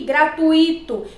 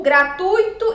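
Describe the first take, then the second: First: "gratuito" slowly as gra-tu-Í-to; stress on I. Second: "gratuito" as gra-TÚI-to, ui in one syllable; stress on U. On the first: Teacher showing what not to say, "gratuito" stressed on i. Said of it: "e não o I". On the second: Teacher correcting the stress, "gratuito" stressed on u. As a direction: hit the u in "gratuito". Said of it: "a sílaba tônica na palavra gratuito é o U". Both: Shown as a demonstration.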